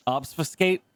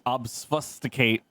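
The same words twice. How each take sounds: First: Obfuscate? asked with a rising tune, unsure of it; Obfuscate? tried again with a doubtful rise; checking pronunciation. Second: Obfuscate drawn out slowly and falling, syllable by syllable; careful word. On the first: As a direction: question whether Obfuscate is right, lifting the end. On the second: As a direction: spell out obfuscate slowly, testing it. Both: Shown as a demonstration.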